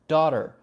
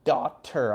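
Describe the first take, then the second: First: The middle consonant is a light D sound. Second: The middle consonant is a clear T sound. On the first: The speaker calls it right. "a very light, ara, sort of like the Japanese R sound" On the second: The speaker calls it wrong. "notice I'm not saying daughter"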